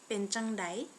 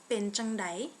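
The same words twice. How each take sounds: No difference in how they are said.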